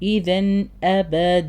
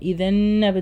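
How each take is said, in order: First: The n and the following hamza are pronounced clearly. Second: The n is nasalized and blended into abada. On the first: The speaker calls it right. "അവിടെ ഇദ്ഹാറാണ്, വെളിവാക്കി പറയാം" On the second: The speaker calls it wrong. "ഇദൻ അബദ എന്ന് പറയരുത്"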